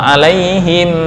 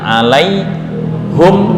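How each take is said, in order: First: The vowel after the h is i. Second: The vowel after the h is u. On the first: "membaca kasroh normal" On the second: "dengan membaca dommah pada ha"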